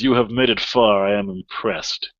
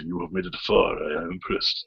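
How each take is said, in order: First: It is said in a plain narrating voice. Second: It is said in a put-on samurai voice.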